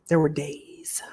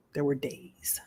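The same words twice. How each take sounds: First: Whispered confession, no voice; unvoiced hush. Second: Quiet voiced repeat, much softer; hushed but voiced; soft spoken. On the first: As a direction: breathe it out as a secret. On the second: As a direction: say it softly, barely aloud. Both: Real, not acted.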